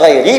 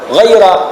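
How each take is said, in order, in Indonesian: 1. Kata ini diakhiri dengan vokal 'i'. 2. Kata ini diakhiri dengan vokal 'a'. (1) "bisa dibaca ghairi" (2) "bisa dibaca dengan juga dengan nasab ghaira"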